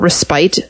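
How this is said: It is said in a British way.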